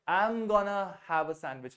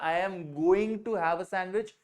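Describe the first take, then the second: First: 'Going to' is reduced to one word, 'gonna'. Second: 'Going to' is said as two full words.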